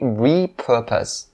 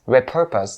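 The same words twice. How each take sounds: First: The first syllable has a long E vowel. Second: The first syllable has a short E vowel. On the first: The speaker calls it right. "it has the long E sound and not the short one" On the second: The speaker calls it wrong. "you cannot say repurpose. Repurpose, no, it's not correct"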